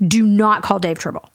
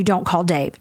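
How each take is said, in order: First: "not" set apart and leaned on; firm "Do not call" with the weight on "not"; stress on not. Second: Said in the usual way. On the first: Retold or imitated.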